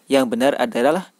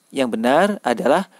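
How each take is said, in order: Both takes have the same delivery.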